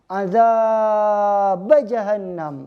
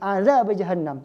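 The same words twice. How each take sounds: First: The vowel in azab is stretched out long. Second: The vowel in azab is kept short. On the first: It stresses the threat to make listeners afraid. "biar takut azab" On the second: It is the plain reading with no added emphasis. "cuma dua harakat natural asli"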